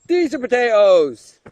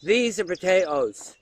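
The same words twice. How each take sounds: First: Emphatic repeat. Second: Said in the usual way. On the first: Acted. Repeated louder, stress on these.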